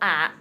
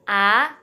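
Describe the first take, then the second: First: The pitch dips low, then curls back up. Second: The pitch rises steadily from mid to high. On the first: "nada tiga itu ... kayak keriting kecil banget" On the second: "nada dua itu seperti naik"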